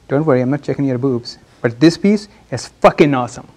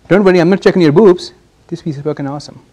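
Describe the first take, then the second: First: The stress falls on the word piece. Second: The stress falls on the word boobs. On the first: The compliment is what gets remembered. The speaker calls it right. "I didn't stress on boobs. I stressed on this piece" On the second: The mention of the body is what gets remembered. The speaker calls it wrong. "What did register with you this time?"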